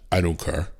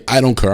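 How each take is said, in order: First: Flat, quieter dismissive brush-off. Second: Louder, hammered repeat of his words; indignant repeat. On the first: Supervisor brushing off the traveller, flat and dismissive. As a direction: toss it off like you couldn't care less. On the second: Traveller repeating the supervisor's words, louder and outraged. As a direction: throw his words back in disbelief. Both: Retold or imitated. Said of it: "That's what he said to me".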